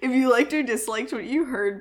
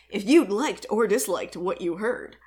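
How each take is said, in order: First: The voice is a plain, ordinary speaking voice. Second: The voice is a booming, put-on announcer voice. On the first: The speaker calls it right. "I'm trying so hard not to do it" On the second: The speaker calls it wrong. "I don't know why I'm doing the announcer voice"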